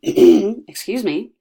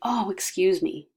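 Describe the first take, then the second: First: It sounds pointed, calling for someone's attention. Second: It sounds apologetic, like saying sorry.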